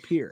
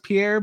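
First: The name is said the American English way. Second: The name is said the French way. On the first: "but like in English, like American English, it's P-I-E-R, so Pierre" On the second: "Maybe it's maybe it is pronounced Pierre"

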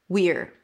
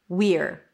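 No difference in how they are said.

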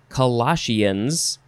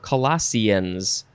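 First: The ending sounds like "sheans." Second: The ending sounds like "seans." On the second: "or Seans"

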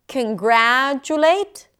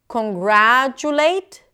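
Both takes have the same delivery.

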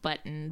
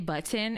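First: The word is pronounced loosely and casually. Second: The word is pronounced carefully and fully. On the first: "that feels like hella too casual sometimes" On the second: "sometimes I say button"

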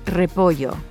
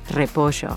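First: The double L is not said as sh. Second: The double L is said as sh. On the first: "Like in the word repollo" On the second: "pronounces his double L's and Y's as sh"

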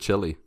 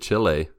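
First: It sounds like the English word chilly. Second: It sounds like chee-lay, with two clear vowels. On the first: The speaker calls it wrong. "instead of Chile" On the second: The speaker calls it right. "Good job pronouncing it Chile"

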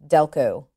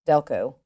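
No difference in how they are said.

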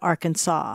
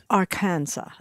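First: The name is given its modern English pronunciation. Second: The name is given a French pronunciation. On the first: This is the later, altered form of the name. "it was ultimately corrupted to Arkansas" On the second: This is how the French first rendered the name. "The French interpreted it as Arkansas"

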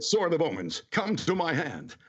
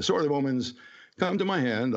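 First: It is said in a dramatic heroic voice. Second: It is said in a plain conversational voice.

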